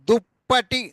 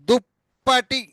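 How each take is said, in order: Both takes have the same delivery.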